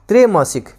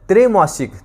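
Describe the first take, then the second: The two takes are said the same way.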